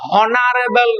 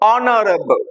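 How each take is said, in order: First: The word starts with an h sound. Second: The word starts with a vowel sound. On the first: The speaker calls it wrong. "হনারেবল নয়" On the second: The speaker calls it right. "অনারেবল উচ্চারণটা"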